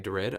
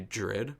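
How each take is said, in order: First: The word begins with a plain D sound. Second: The word begins with a J-like sound. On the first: The speaker calls it wrong. "I don't say dread" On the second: The speaker calls it right. "that's how it's said in American English"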